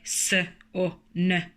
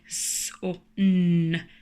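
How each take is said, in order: First: The letters' full names are said. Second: Only the letters' sounds are said. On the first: The speaker calls it wrong. "We don't say" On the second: The speaker calls it right. "we say"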